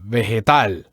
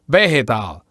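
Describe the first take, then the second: First: The stress is on the last syllable. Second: The stress is on the first syllable. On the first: The speaker calls it right. "In Spanish, you have to do it in the last syllable" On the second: The speaker calls it wrong. "don't put the accent the same as in English ... in English, you put the accent in the very first syllable"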